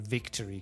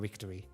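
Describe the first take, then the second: First: The word starts with a crisp V sound. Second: The word starts with a soft W-like sound. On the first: The speaker calls it right. "saying victory correctly" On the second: The speaker calls it wrong. "it's just going to be a victory"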